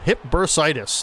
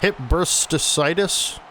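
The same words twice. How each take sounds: First: Bursitis is pronounced in the usual, normal way. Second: Bursitis is pronounced in an odd, mangled way. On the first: The speaker calls it right. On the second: The speaker calls it wrong.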